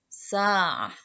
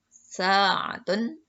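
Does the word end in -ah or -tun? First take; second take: -ah; -tun. First: The word ends with a short -ah sound. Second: The word ends with a full -tun syllable. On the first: "kalau disukunkan, itu jadi ha" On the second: "kalau dibaca pakai tanwin, domah tanwin, berarti itu dibaca tun"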